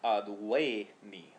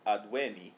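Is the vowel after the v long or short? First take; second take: long; short. First: The e after v is long. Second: The e after v is short. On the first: It is the perfect stem. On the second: It is the present stem.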